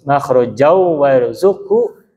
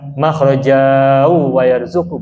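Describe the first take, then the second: First: The final vowel is short and flows into wa. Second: The final vowel is held long before wa. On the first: The speaker calls it right. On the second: The speaker calls it wrong. "Jadi bacanya bukan"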